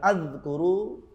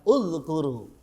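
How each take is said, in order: First: The word begins with an 'a' vowel. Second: The word begins with a 'u' vowel. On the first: The speaker calls it wrong. "Tidak boleh dibaca" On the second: The speaker calls it right. "Dibaca udzkuru"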